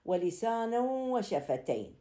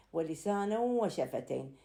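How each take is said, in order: First: Slow, higher recitation of ولسانا وشفتين, the tanween of ولسانا merged into the waw with nasal hum; ترتيل بطيء مع إدغام بغنة; recited with idgham. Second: Said in the usual way. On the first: Shown as a demonstration. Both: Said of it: "لسانا ينتهي بالتنوين".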